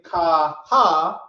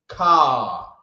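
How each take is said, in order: First: The two sounds are said as two syllables. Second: The two sounds are joined into one syllable. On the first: The speaker calls it wrong. "which is two syllables" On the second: The speaker calls it right. "because these sounds are connected"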